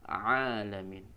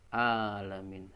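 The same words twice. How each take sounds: First: It starts with a squeezed throat sound. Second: It starts with a plain glottal catch. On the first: The speaker calls it right. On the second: The speaker calls it wrong. "membacanya dengan huruf uh, hamzah"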